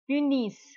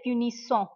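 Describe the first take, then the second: First: The final ending is silent. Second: The final ending is pronounced. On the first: The speaker calls it right. "The ent of the verb, it is always silent. We never pronounce it" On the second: The speaker calls it wrong. "You will not say"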